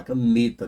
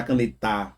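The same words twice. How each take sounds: First: Caneta with NE held longer; stress on middle NE. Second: Canetar stressed on the last syllable TAR; misplaced final stress. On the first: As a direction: linger on "ne" in caneta. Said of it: "demora mais no ne". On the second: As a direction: push the stress to the end of canetar. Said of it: "você não fala canetar". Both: Shown as a demonstration.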